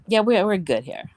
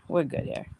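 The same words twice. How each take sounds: First: Said in the usual way. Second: Breathy whisper, calming down; hushed self-soothing; whispered repeat. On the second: Real, not acted. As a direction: whisper it to settle yourself. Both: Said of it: "I'm calm now".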